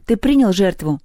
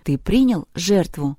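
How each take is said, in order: First: Firmer, raised repeat of the question; insistent demand. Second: Slow, composed inquiry; calm question. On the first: Люба demands that Перун answer her, insistent. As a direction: press the question hard. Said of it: "отчеканила Люба". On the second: Люба asks Перун about the sacrifice, calm. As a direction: ask it evenly, without pressure. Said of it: "раздался спокойный голос Любы". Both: A narrator's reading.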